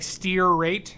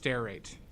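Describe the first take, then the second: First: The first syllable sounds like 'steer'. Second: The first syllable sounds like 'stare'. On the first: The speaker calls it wrong. "Like steer rate" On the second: The speaker calls it right. "but it's stare. It's pronounced stearate"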